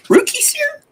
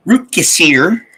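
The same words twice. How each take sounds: First: Rukeyser squeaked very high with a rising, doubtful end; squeaky unsure name. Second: Said in the usual way. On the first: Real, not acted. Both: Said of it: "Please forgive me".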